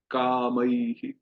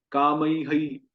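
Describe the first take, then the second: First: कामई drawn out very slowly with a short "hi"; correct visarga, slow. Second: कामई हई with the "ai" copied as "hai"; wrong visarga. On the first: Teacher giving the right form slowly. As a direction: stretch कामई slowly as "kamai-hi". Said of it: "ध्यान से सुनिए". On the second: Teacher showing the wrong copied ending. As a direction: say कामई हई, echoing the "ai". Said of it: "हम वो ऐ को duplicate नहीं करेंगे". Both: Shown as a demonstration.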